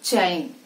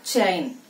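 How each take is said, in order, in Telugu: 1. 'ch' శబ్దం బలంగా విడుదల అవుతుంది. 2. 'ch' శబ్దం బలంగా విడుదల అవుతుంది.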